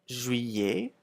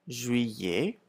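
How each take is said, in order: Both takes have the same delivery.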